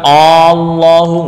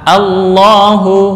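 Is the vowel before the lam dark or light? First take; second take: dark; light. First: The opening vowel is heavy, sounding like o. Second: The opening vowel is light, like a clear a. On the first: The speaker calls it wrong. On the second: The speaker calls it right.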